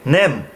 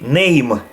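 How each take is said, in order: First: The vowel stays plain with no y glide. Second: The vowel glides into a y sound. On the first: This is the usual modern way of saying it. "We say nem" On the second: "they would say name"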